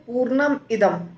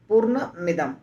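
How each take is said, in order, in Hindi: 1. दोनों शब्द अलग-अलग बोले जाते हैं। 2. दोनों शब्द एक साथ मिलाकर बोले जाते हैं। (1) "फिर पूर्णम इदम" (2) "इकार जो है वो जुड़ गया म के साथ"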